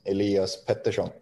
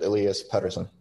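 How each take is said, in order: First: The name is pronounced with Swedish sounds. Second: The name is pronounced with English sounds. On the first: "the Swedish way is" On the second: "I like it"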